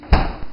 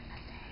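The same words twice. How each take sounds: First: Loud call. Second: Soft, dropped to a mumble; quiet repeat. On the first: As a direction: shout the word out loud. Calling out for mustard. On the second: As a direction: say it again under your breath. Repeats it under breath. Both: Real, not acted.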